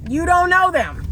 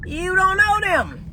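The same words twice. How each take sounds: First: High, pressing repeat; insistent warning; emphatic repeat. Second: High, slow, emphatic; emphatic warning, drawn out. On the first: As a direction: drive it home again. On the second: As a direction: spell it out slowly. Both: Shown as a demonstration. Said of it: "repeated for emphasis".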